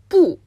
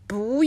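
First: The syllable has a falling fourth tone. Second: The syllable has a rising second tone. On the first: "これは第四声ですよね" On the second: "第4 声じゃなくて第2 声になるんだよね"

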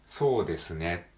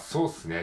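First: The de sound is fully pronounced. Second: The de sound is dropped. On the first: "そうですねって書くじゃないですか。" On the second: "でも実際の会話ではそうっすねって言いますよね。"

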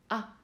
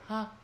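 First: The vowel starts from closed vocal folds. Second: The vowel starts from open vocal folds. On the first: "閉じてる声帯に息を当てて作る母音" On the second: "開いてる声帯に息を当てて作る母音"

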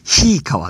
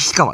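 First: The first vowel is drawn out long. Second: The first vowel is short. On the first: This is how the name is said in Izumo. "あいうえおが後につくわけです" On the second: This is how the name is said in Kanto. "これ日川と言います"

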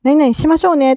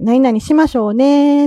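First: It has a standard Japanese pitch pattern. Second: It has an Okinawan pitch pattern.

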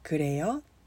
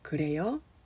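First: The voice rises at the end. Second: The voice rises at the end.

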